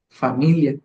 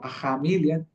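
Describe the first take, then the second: First: The first consonant is a clear f sound. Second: The first consonant is a breathy h sound. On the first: "como hoy en día nosotros lo conocemos" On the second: "O jamilia"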